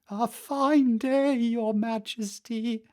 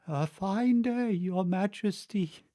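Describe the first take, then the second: First: It is said in a normal voice. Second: It is said in a low, weak voice.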